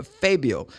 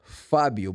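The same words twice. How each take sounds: First: "Fabio" as FAY-bee-oh; English name pronunciation. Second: "Fabio" with an open ah, FAH-byu; native name pronunciation. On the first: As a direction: say "Fabio" with an ay in the first syllable. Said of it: "but they normally say Fabio". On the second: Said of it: "my name is Fabio". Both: Shown as a demonstration.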